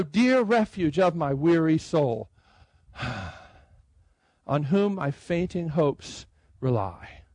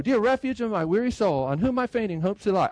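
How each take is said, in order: First: Slow, with a long breath between the lines; sigh, pause, then let the second line come slowly; unhurried reading with a sigh before "on whom". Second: Rushed reading. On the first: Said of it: "it puts a pause there". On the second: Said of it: "I can't just go". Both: Shown as a demonstration.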